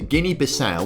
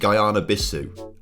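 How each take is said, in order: First: The first part sounds like 'Guinea'. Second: The first part sounds like 'Guyana'. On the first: The speaker calls it right. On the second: The speaker calls it wrong.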